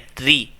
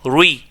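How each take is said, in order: First: The r sound is thin and light. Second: The r sound is thick and heavy. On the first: The speaker calls it right. "देखें आवाज़ बारीक है" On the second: The speaker calls it wrong. "अब मैं यहाँ पर इसको मोटा कर रहा हूँ"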